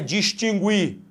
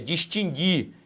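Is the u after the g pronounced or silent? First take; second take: pronounced; silent. First: The u after the g is pronounced. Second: The u after the g is silent. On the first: The speaker calls it wrong. "não é distinguir, cuidado com isso" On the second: The speaker calls it right. "esse U não é pronunciado"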